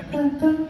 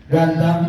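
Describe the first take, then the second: First: High puppet voice repeating Ganteng; monkey puppet voice. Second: Said in the usual way. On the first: Acted. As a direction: parrot Ganteng as a little monkey. Coba bilang. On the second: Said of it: "Coba bilang".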